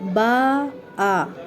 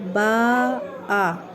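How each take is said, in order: Both takes have the same delivery.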